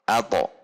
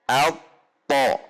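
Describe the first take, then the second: First: The consonant is released at once without hold. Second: The consonant is held briefly before release. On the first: The speaker calls it wrong. "Tidak ada tahanan, sehingga terkesan nanti tasydidnya menjadi hilang" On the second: The speaker calls it right. "Al seperti berhenti sejenak, kemudian po"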